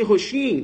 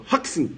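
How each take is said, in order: First: "roxinho" with a Portuguese sh, ho-SHIN; wrong pronunciation. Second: "Roxin" as HOK-sin, X as ks; correct pronunciation. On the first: Teacher shows the misreading to correct it, wrong pronunciation. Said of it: "não fala assim". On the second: Teacher models the name for students, correct pronunciation. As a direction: say "Roxin" with a crisp k-s in the middle. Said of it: "Fala assim, ó". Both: Shown as a demonstration.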